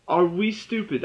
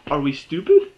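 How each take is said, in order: First: Said in the usual way. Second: "are we stupid?" louder, rising on "stupid"; louder rising question. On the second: Real, not acted. Reviewer asks viewers in loud rising disbelief.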